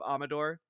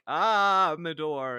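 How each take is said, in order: First: The 'ah' vowel is kept short. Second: The 'ah' vowel is stretched out long. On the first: "instead of" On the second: "I always feel like I have to stretch out the ah"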